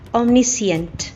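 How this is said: It is said with a British accent. "British English"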